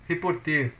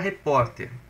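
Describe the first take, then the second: First: The stress is on the last syllable. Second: The stress is on the second syllable. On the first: It sounds like an infinitive verb. The speaker calls it wrong. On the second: It is the noun meaning reporter. The speaker calls it right.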